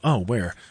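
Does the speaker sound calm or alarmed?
calm. It sounds calm and mildly curious.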